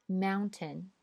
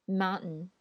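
First: British mountain with the t said; British English. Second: American mountain without the t; American English. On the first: Teacher reads mountain in a British accent. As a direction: mountain with a clear t, British style. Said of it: "我先读英音". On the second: Teacher reads mountain in an American accent. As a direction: mountain said "moun-n", t dropped, American style. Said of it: "再读美音". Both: Shown as a demonstration.

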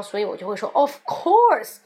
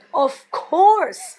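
First: Said in the usual way. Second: Of course much higher and louder; insulted duh. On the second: Shown as a demonstration. Offended at a dumb question, loud of course. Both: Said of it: "我感觉你有点在低估我的智商".

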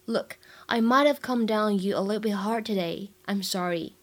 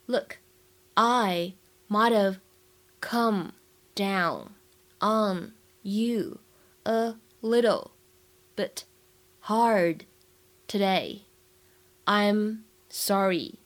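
First: Said in the usual way. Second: Slow, with a pause after each word or phrase. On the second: Shown as a demonstration. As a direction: dictate it piece by piece for learners. Teacher models it word by word. (一词一顿地慢速示范朗读)

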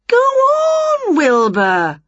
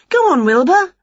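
First: Very high, stretched "Go on" falling on the name; urging. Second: High, loud prompt to a cat; encouraging witch. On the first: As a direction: coax insistently, starting way up high. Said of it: "urged Winnie". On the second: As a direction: nudge the cat on, pitched high. Winnie prompting her cat. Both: A narrator's reading.

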